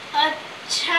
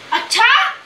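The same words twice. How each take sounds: First: It is drawn out, thoughtful and musing. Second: It sounds shocked and questioning.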